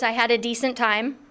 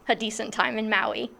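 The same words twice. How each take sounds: First: Said in the usual way. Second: Softly laughing at herself. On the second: Real, not acted. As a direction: repeat it through a small laugh, softer. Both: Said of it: "How ridiculous to say".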